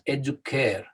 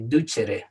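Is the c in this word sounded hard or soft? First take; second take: hard; soft. First: The c is a hard k sound. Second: The c is a soft ch sound. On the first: This is the original Latin pronunciation. The speaker calls it right. "It was a hard K. So it was educare" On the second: This is the modern Italian-style pronunciation. The speaker calls it wrong. "especially the Italian people, they say ducere nowadays"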